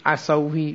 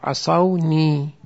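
First: عصوی said without the nun, as the broken form; teacher voices عصوی to show the wrong way; wrong form demo. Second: عصونی drawn out very slowly with the nun clear; correct form, slowly. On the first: Teacher shows students the wrong form عصوی. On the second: Teacher models the right form عصونی slowly for the class. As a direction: savour عصونی, each sound spelt out slowly. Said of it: "خیلی قشنگ". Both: Shown as a demonstration.

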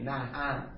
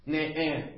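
First: Said in the usual way. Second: نعم pronounced ne'em rather than na'am; kasra on both syllables. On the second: Shown as a demonstration. Teacher listing variants for students, ne'em with double kasra. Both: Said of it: "نعم شهد به کسرتین".

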